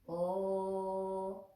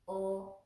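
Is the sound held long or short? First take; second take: long; short. First: The sound is held for two counts. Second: The sound is held for one count.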